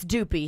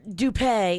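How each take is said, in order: First: It is pronounced with an American accent. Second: It is pronounced with a French accent. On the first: "here in the States" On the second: "is the French pronunciation"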